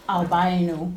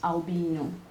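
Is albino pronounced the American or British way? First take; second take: American; British. First: The word has an American English pronunciation. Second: The word has a British English pronunciation. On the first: "American English that calls albino" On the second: "British the British English would pronounce as albino"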